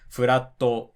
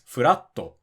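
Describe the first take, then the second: First: The word is said on one level pitch. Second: The word is said with a pitch drop. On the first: The speaker calls it wrong. "It's not furatto" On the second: The speaker calls it right. "the pitch accent of the word flat is actually not flat"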